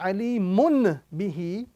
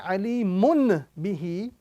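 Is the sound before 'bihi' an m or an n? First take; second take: n; n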